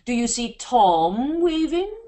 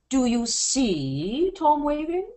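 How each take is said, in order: First: The stress is on Tom. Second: The stress is on see.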